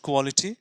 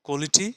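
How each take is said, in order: The two takes are said the same way.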